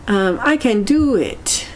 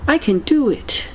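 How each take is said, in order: First: A first, slower try at a self-pep line; tentative can-do mantra; mild affirmation. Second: I pitched higher, full of can-do energy; high-energy mind-power mantra; energetic affirmation. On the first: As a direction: say it like you half believe it. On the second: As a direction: pump yourself up on I. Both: Shown as a demonstration. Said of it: "I need this kind of energy in my life".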